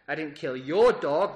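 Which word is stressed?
your. The word 'your' carries the emphasis.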